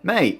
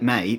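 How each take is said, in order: First: It sounds friendly and happy. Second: It sounds annoyed and unhappy.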